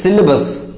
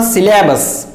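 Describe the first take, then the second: First: SYLLABUS with a weak middle, "SIL-uh-bus"; correct pronunciation. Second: SYLLABUS with an open a, "si-LA-bus"; mispronunciation. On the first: Teacher corrects learners, syllabus pronounced "SIL-uh-bus". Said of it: "it is syllabus". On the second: Teacher warns learners off syllabus mispronounced "si-LA-bus". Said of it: "It is not syllabus". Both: Shown as a demonstration.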